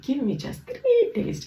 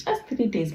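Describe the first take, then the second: First: Much higher, slow desperate plea; pleading. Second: Said in the usual way. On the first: Retold or imitated. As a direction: beg the king, voice leaping up. Terah pleads with the king.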